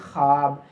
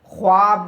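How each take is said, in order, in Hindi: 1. w की आवाज़ बस हल्की सी सुनाई देती है। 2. w की आवाज़ साफ़ बोली गई है। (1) "यानी वाव की बू आती है" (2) "ख्वाब नहीं कहते"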